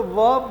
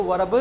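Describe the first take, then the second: First: "वर्ब" as one syllable "vub", no R; silent R. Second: "वर्ब" as "va-rab" with audible R; wrong R pronounced. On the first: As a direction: leave the R out of "वर्ब". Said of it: "इसलिए इसको वर्ब बोलते हैं". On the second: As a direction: sound the R in "वर्ब" as an extra syllable. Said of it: "नहीं बोलते हैं". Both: Shown as a demonstration.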